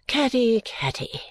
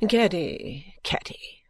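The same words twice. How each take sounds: First: High first name sinking to a whisper; weary. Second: Untroubled mother, fading to a whisper; complacent. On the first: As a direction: sigh out the daughter's name wearily. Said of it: "quite weary of such little matters". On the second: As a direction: chide the daughter placidly, second name hushed. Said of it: "with the greatest complacency". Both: A narrator's reading.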